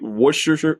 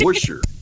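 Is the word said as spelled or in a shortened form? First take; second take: as spelled; shortened. First: Every written syllable of the word is pronounced. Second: The word is said with fewer syllables. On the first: "the way it that we would read it" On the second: "It's supposedly just Worcestershire"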